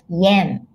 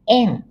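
First: The word starts with a 'y' glide sound. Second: The word starts directly with the vowel 'e'. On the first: The speaker calls it wrong. "not yen" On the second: The speaker calls it right. "but N in Japanese"

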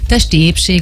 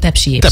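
First: The first word is pronounced carefully as testi. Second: The first word is slurred quickly into tepsi. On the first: "a testi épség" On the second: "hogyha használod, és gyorsan szeretnéd kimondani"

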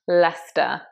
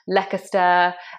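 First: It is said short, the middle letters left silent. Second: It is said following the spelling, more syllables. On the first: The speaker calls it right. "it's in fact Leicester" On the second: The speaker calls it wrong. "mispronounced by many commentators"

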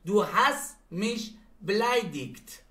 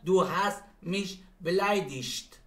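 First: The last word ends with a hard k sound. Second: The last word ends with a soft sch sound. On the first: "دو مدل تلفظ میشه مثل فرتیگ و فرتیش" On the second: "دو مدل تلفظ میشه مثل فرتیگ و فرتیش"

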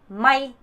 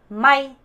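No difference in how they are said.

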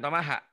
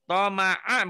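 First: The middle consonant is a breathy h sound. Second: The middle consonant is a throaty glottal catch. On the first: The speaker calls it wrong. "bukan Tomaha" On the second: The speaker calls it right. "Betul Ain itu. Toma'a"

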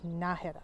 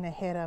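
First: The stress is on the first syllable. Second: The stress is on the second syllable. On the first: The speaker calls it right. "there's an accent on the A, so it's Najera" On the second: The speaker calls it wrong. "I think I've been saying Najera more times"

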